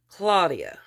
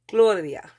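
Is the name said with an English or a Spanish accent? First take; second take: English; Spanish. First: It is said with an American English accent. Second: It is said with a Spanish accent.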